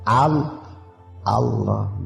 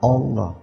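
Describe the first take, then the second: First: The first syllable has a clear open 'a' vowel. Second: The first syllable lacks a clear open 'a' vowel. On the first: The speaker calls it right. "Hamzahnya itu dibaca fathah dong" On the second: The speaker calls it wrong.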